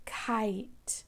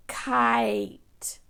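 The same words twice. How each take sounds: First: Said in the usual way. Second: "Kite" whispered with long I; whispered word. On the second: Shown as a demonstration. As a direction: breathe "Kite" out clearly. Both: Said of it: "If you hear long I".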